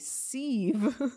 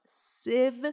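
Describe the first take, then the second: First: The word does not rhyme with 'Shiv'. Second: The word rhymes with 'Shiv'. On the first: The speaker calls it wrong. "I pronounced it a sieve and told me that I was pronouncing it wrong" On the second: The speaker calls it right. "It's pronounced sieve like Shiv from Succession"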